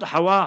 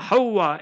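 First: The w sound is short and single. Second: The w sound is doubled and held longer. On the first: The speaker calls it wrong. "not Hawa" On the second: The speaker calls it right. "H-A-W-W-A, the wow, what a shadda"

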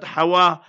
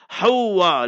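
First: The w sound is short and single. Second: The w sound is held and doubled. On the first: The speaker calls it wrong. "not Hawa" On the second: The speaker calls it right. "H-A-W-W-A, learn to pronounce properly"

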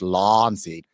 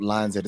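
First: 'Lion's' sounds like a long, drawn-out 'laarns'. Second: 'Lion's' has an ordinary two-syllable 'lion' sound. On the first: "It's L-A-A-R-N-S" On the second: "it's not Lion's Head"

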